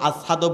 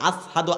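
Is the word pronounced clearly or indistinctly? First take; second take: indistinctly; indistinctly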